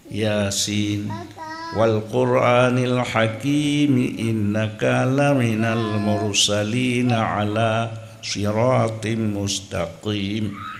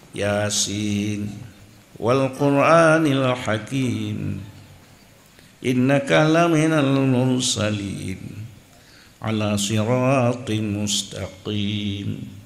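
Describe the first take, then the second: First: The verses run together without stopping. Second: The reciter stops at the end of each verse. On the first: "Munyo hana tawakaf" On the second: "Nyan tawakal"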